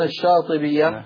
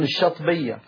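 First: The long vowel after the first consonant is kept. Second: The long vowel after the first consonant is dropped. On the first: This is the full form with the long vowel. "ولا يقولون الشاطبية" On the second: This is the colloquial form that avoids two meeting consonants. "فيأكلون الألف"

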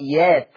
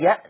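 First: A long vowel replaces the glottal stop. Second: A glottal stop follows the first sound. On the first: "قرأ ورش بالإبدال ... فيقرأ يات" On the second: "لفظي يأت"

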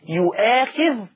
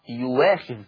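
First: A glottal stop is pronounced in the word. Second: The glottal stop is replaced by a w sound.

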